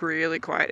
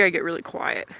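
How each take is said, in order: First: "really" drawn out, soft and low; stress on really. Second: Really quiet. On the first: Rider underlining how quiet they get, "really" stretched softly. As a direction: stretch the word "really" in a hushed, lower voice. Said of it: "like, really quiet". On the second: Rider explaining how anger shows in them, really quiet. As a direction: voice dropping softer and lower. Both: Shown as a demonstration.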